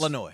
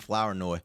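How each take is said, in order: First: The first part sounds like a short fla. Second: The first part sounds like the word flower. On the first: The speaker calls it right. "It's Flanoy" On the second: The speaker calls it wrong. "still calling him Flower Noy"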